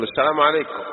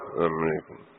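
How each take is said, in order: First: A hint of condescension in "السلام عليكم"; arrogant greeting. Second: Low, barely audible salaam, swallowed; mumbled greeting. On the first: Arrogant man greeting God's servants, lightly condescending. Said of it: "تتكبر على عباد الله". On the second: Retold or imitated. Passer-by mumbling a greeting nobody can hear, low and soft. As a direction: mutter "السلام عليكم" low and soft so nobody hears. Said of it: "يا ما يسمع يعني".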